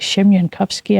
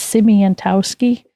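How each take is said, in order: First: The surname is said in the Polish way. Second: The surname is said in an Americanized way. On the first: This is how the name is really said. The speaker calls it right. "But it's actually ... if you say it right" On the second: This is how the family was told to say it. The speaker calls it wrong. "we were told to say it's"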